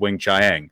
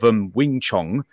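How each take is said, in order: First: The name is said in a plain, ordinary voice. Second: The name is said in a posh announcer accent. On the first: "they kept mispronouncing Talents of Wing Chiang" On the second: "this very upper RP sort of BBC announcer completely mispronounce it"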